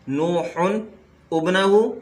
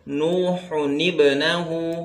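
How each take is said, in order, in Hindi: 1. दोनों शब्द अलग-अलग बोले जाते हैं, बिना जोड़े। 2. शब्द एक जोड़ी गई 'ni' ध्वनि से जुड़ते हैं। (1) "यहाँ पे था" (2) "एक हरकत गिरा दी गई उसकी जगह पे नून कुतनी को ले आए"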